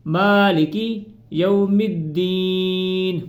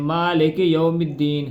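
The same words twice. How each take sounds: First: Slow, tuneful recitation with a short ی in مالکی; slow correct reading. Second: Malik said with a long ے in place of the kasra under ک; wrong pronunciation. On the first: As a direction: chant مالکی with a short kasra. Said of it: "پہلے اس کی practice کرنی ہے". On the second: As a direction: demo the mistake: Malik said as male-k. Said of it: "اس طرح نہیں پڑھنا اس کو". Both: Shown as a demonstration.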